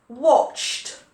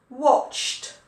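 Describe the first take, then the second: No difference in how they are said.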